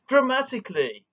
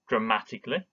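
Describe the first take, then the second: First: It is said in a big, dramatic way. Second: It is said in a plain, ordinary way.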